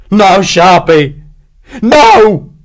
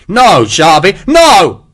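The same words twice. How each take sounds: First: Slow, loud, high despairing cry; yelp of despair. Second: Loud, high panicked scream of no; screaming plea. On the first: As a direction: howl no in hopeless despair. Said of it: "This last word was a yelp of despair". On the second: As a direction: beg for life, screaming. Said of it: "Hexwell screamed". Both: Acted.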